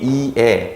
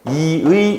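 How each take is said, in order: First: The first syllable has i, the second has e. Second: The first syllable has i, the second has ui. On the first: "네 개를 모두 허용한다" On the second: "이로 발음하는 거를 모두 허용하는"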